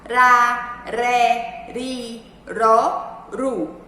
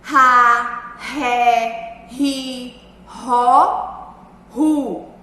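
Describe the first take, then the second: First: The R is pronounced with a weak sound. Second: The R is pronounced with a strong sound. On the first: "o som do R vai ser um som fraco?" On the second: "que o R vai ter som forte?"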